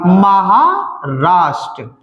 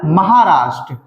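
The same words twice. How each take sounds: First: Maharashtra very slow, split as महा, राष्ट्र; drawn-out dictation. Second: Said in the usual way. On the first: Shown as a demonstration. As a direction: stretch महा, pause, then land राष्ट्र. Slow repeat after asking the class.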